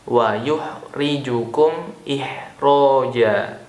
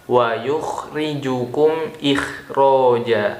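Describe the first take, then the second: First: It uses a soft, breathy h sound. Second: It uses a harsh, rasping kh sound. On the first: It means confusing you. The speaker calls it wrong. "yang kedua ... huruf ha" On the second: It means bringing you out. The speaker calls it right. "Yang pertama ... pakai huruf kha"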